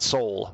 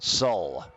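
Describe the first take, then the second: First: The word is said like English 'soul'. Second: The word is said as 'sol', not 'soul'. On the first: The speaker calls it wrong. "Not soul" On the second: The speaker calls it right.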